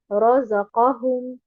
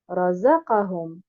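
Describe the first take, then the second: First: The first syllable and the third syllable are stressed. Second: Only the second syllable, za, is stressed. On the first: The speaker calls it right. "en plaçant un nabr sur les deux harakat qui sont ra et al-qaf" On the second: The speaker calls it wrong. "en plaçant uniquement un nabr sur harakat al-zay"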